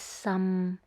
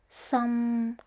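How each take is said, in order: First: It is said in the sixth tone. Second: It is said in the third tone. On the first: It means very. "The sixth tone is some" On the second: It means leak. "The third tone is some"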